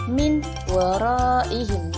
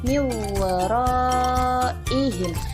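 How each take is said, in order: First: A clear n is heard before the w. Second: The n merges into the following w sound. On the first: The speaker calls it wrong. "Jangan dibaca min waraihim" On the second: The speaker calls it right. "Jadi bacanya mi waraihim"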